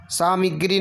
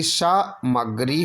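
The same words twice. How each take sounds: First: सामग्री as saa-mi-gree; extra i. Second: सामग्री as saa-ma-gree, syllables apart; no extra i. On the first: Teacher showing the error, सामग्री as saa-mi-gree. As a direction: slip an i after m in सामग्री. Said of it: "नहीं बल्कि". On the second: Teacher giving the correction, सामग्री as saa-ma-gree. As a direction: say plain ma in सामग्री. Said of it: "छोटी की मात्रा हटा देंगे". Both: Shown as a demonstration.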